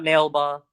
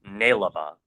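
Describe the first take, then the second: First: The name has two syllables: nail-ba. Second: The name has three syllables: nai-la-ba. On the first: The speaker calls it wrong. "it's not Nailba" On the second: The speaker calls it right. "which is pronounced Nailaba"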